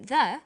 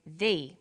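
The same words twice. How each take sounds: First: Said in the usual way. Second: "the" with a long ee vowel; "the" as said before vowels; the said as "thee". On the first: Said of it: "There is a difference in pronunciation". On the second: Shown as a demonstration. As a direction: say "the" to rhyme with see. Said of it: "we say".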